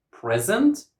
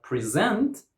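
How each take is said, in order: First: "present" as PREZ-ent; "present" with high, strong PREZ; first-syllable stress. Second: "present" as pri-ZENT; "present" with weak pri, strong ZENT; second-syllable stress. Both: Shown as a demonstration. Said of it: "stressing the wrong syllable".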